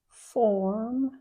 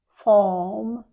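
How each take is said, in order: First: It is said in an American accent. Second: It is said in a British accent. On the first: "Like in American English" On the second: "But in British English"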